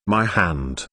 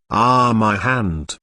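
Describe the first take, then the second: First: Fading whimper. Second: Drawn-out slow wail of pain. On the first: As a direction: let it sink into a whimper. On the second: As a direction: moan it out slowly, hurting. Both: A narrator's reading. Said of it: "the wailing in her ear".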